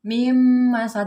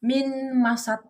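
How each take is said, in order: First: The n merges into a nasalized double m. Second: The n is pronounced separately before the m. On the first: The speaker calls it right. "tetapi mim masad" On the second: The speaker calls it wrong. "bukan min masad, bukan"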